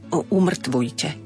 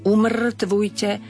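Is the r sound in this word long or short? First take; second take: short; long. First: The r sound is short. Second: The r sound is long. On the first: The speaker calls it wrong. "aby nebolo umrtvujte" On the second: The speaker calls it right. "má dlžeň na r"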